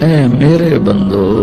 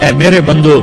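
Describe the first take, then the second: First: It is said in a warm, loving tone. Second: It is said in a plain, unloving tone. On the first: The speaker calls it right. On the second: The speaker calls it wrong.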